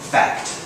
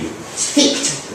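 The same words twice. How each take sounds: First: It is said in the speaker's usual accent. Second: It is said in a New Zealand accent.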